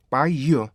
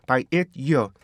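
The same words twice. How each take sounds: First: "by year" joined, with only a brief stop between; linked version. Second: "by it year" with a separate stop "it" in the middle; step-by-step linking. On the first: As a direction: glide "by" into "year" as one phrase. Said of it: "연결만 해주시면 돼요". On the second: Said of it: "순차적으로 그냥 연결만 해주시면". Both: Shown as a demonstration.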